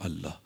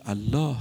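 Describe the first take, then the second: First: Soft, low, unshaken reply; calm answer. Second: Said in the usual way. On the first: Retold or imitated. The Prophet calmly answers the man holding the sword. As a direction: answer the threat with total calm. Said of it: "پیغمبر با آرامش گفت". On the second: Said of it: "پیغمبر اکرم فرمود".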